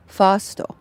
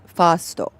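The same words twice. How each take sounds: First: "Fasto" repeated with open a and final o; "Fasto" said again the Japanese way. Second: "fasto" with open a and added o; "fasto" said the Japanese way, slowly. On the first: Streamer repeating the Japanese word for chat. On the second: Streamer explaining the chain name, Japanese pronunciation. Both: Shown as a demonstration. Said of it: "first is pronounced fasto".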